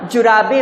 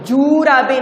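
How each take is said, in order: First: The first vowel is a short 'u'. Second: The first vowel is a long 'oo'. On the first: The speaker calls it right. "छोटे ऊ की मात्रा आती है" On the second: The speaker calls it wrong. "जूराबे नहीं होता है ना"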